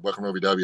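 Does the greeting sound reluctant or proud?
reluctant. It sounds reluctant and unenthusiastic.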